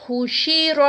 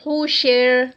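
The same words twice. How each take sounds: First: حشر with a heavy, full-mouthed ر, vowel kept on the ra; heavy ra demo. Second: حشر stopped on a thin, light ر after the kasra; light ra demo. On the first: Teacher showing students حشر with heavy ra. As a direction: recite حشر with the ra thick and rounded. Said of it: "را جو ہے وہ موٹا ادا کیا جائے گا". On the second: Teacher showing students حشر stopped with light ra. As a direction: stop on حشر keeping the ra light. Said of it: "تو پھر را باریک ہو جائے گا". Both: Shown as a demonstration.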